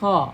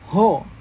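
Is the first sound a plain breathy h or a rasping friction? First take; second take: rasping friction; breathy h. First: It starts with a rasping friction in the throat. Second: It starts with a soft breathy h sound. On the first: The speaker calls it right. "harus ada gesekan ya dengan uh, tenggorokan bagian atas" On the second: The speaker calls it wrong. "ucapkan ho"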